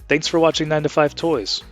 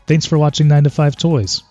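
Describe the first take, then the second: First: The voice is processed to sound clear. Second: The voice is processed to sound warm. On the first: "It's now on clear" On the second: "with the warm setting"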